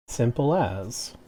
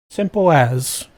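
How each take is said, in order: First: Said in the usual way. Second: Simple as in a jokey British accent, louder; hammed-up British accent on the catchphrase. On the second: Shown as a demonstration. Streamer repeats her catchphrase in a mock British accent. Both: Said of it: "my offensive British accent".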